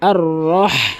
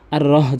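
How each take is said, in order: First: The h is a deep breathy throat sound. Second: The h is a plain light h sound. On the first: The speaker calls it right. "বড় হা উচ্চারণ করুন" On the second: The speaker calls it wrong. "যেন না হয়"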